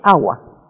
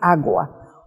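First: The g sound is softened and nearly dropped. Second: The g sound is pronounced clearly and fully. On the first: This is how Ecuadorians say it. "usted oye agua, ¿no? Suavizamos un poco estos sonidos" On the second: This is not how Ecuadorians say it. "Usted no oirá a ningún ecuatoriano decir agua"

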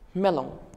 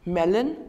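First: It is pronounced the French way. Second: It is pronounced the English way. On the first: "and in French" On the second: "In English"

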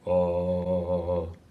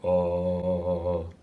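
First: It is said at a low pitch. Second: It is said at a low pitch.

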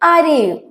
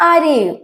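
First: The phrase is run together into a reduced form. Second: The phrase is run together into a reduced form.

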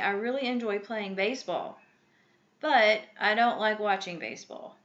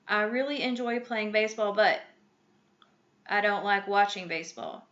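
First: The pause comes before the word 'but'. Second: The pause comes after the word 'but'. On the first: The speaker calls it right. "That comma pauses so you can adjust your voice and show the contradictory tone" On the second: The speaker calls it wrong. "That doesn't sound right"

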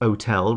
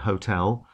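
First: The word starts without an h sound. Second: The word starts with an h sound. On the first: The speaker sounds common. "dropping their H's" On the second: The speaker sounds refined. "rather than hotel"

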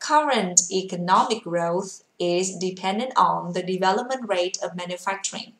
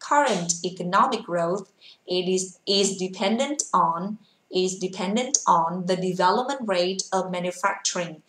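First: The sentence is read quickly. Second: The sentence is read very slowly. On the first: "Đọc nhanh cho cô nhá" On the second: "cô sẽ đọc thật chậm"

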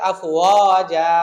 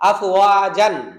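First: The word ends with a long 'a' sound. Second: The word ends with an 'an' sound. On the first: The reader stops on this word. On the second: The reader continues without stopping.

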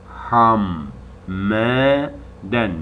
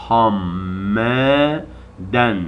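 The two takes are said the same way.

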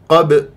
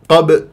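Both takes have the same delivery.

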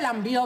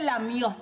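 First: The word has a b sound after the m. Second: The word has no b sound after the m. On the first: The speaker calls it wrong. "no se dice lambió" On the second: The speaker calls it right. "Se dice lamió"

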